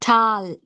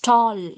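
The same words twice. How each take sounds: First: The vowel is an open unrounded 'ah' sound. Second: The vowel is a long rounded 'aw' sound. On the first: The speaker calls it wrong. "Generally, we say ah, ah, tall, ah. It's wrong" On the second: The speaker calls it right. "It's tall, tall. O, O sound"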